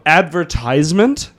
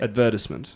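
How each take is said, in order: First: It is said in an American accent. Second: It is said in a British accent. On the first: The speaker calls it wrong. "the worst American word in the world" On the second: The speaker calls it right. "How do you say it?"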